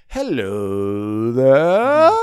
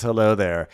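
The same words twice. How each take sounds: First: Slow, louder swooping hello there; James's hello. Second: Lighter quick swoopy hello there; a quick little swoop on hello. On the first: James greeting Lisa, a slow louder swoopy hello. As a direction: swoop it slowly like a smooth charmer. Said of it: "always does this". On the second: James's greeting retold, a faint swoopy hello. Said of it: "a little swoopy swoop". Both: Retold or imitated.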